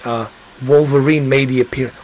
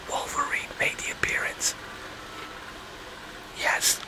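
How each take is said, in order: First: Said in the usual way. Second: Whispering a spoiler to the viewers. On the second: Real, not acted. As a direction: whisper "Wolverine made the appearance" very softly.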